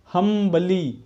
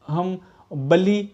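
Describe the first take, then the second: First: Said in the usual way. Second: हम बली said slowly with a break after हम; split into syllables. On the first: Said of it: "अब देखिए fourth है आपका हम्बली". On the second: Shown as a demonstration. Teacher counting the vowel sounds in humbly, split into syllables. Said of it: "तो एक हम".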